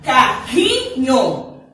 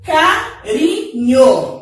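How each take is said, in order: First: Carrinho said very slowly with a guttural rr like h; strong double R. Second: Carinho said very slowly with a light tapped R; soft single R. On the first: Teacher contrasting words for children, slow strong RR. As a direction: breathe the RR of Carrinho out hard and slow. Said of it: "olha como vai ficar diferente". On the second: Teacher contrasting words for children, slow tapped R. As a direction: tap the R in Carinho gently and slowly. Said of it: "Vamos ver como modifica". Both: Shown as a demonstration.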